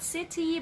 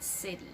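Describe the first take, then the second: First: CITY with a crisp aspirated t; strong T. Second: CITY with t like a quick d; soft flapped T. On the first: Teacher showing students the mistake, strong-T CITY. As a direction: hit a hard t in CITY. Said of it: "Not city, but city". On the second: Teacher modelling for students, flapped-T CITY. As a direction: say CITY as "siddy". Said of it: "the sound becomes letter D". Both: Shown as a demonstration.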